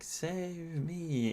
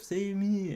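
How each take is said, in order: First: The words are said slowly and clearly apart. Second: The words are said quickly and run together. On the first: The speaker calls it right. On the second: The speaker calls it wrong. "it's going too fast"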